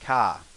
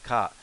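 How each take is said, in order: First: It is said in a Brooklyn accent. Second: It is said in a standard accent.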